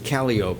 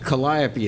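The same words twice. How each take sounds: First: It is said with the local New Orleans pronunciation. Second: It is said with the standard, general pronunciation.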